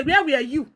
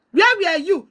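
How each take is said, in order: First: Said in the usual way. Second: "Where" hit harder and the line falls; accusing repeat with "Where" stressed and the tune falling; pressed repeat. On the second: Real, not acted.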